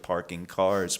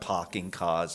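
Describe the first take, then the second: First: They are said in a general American accent. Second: They are said in a New England accent. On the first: "instead of parking cars" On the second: "I start parking cars"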